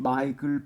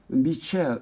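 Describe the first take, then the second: First: The name is said with a hard 'k' sound. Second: The name is said with a soft 'sh' sound. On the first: "영어 발음 마이클이죠" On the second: "미셸이라고 읽긴 하는데"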